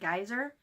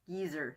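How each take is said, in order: First: The first syllable sounds like 'guy'. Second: The first syllable sounds like 'gee'. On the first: This names the spout of water from the ground. The speaker calls it right. "A geyser is the big, great fount of water" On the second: This sounds like a rude name for an old person. The speaker calls it wrong. "Geezer, that was it. Which, to me, is an old person"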